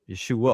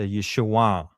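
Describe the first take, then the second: First: The ending is plain, without a nasal sound. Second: The ending is a nasal back sound going down. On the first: The speaker calls it wrong. "we just say Yeshua" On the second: The speaker calls it right. "a nasal back sound, and it's a downward"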